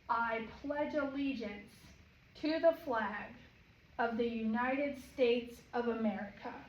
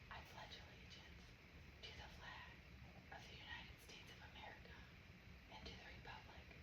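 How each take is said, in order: First: It is called out loudly. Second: It is spoken in a whisper.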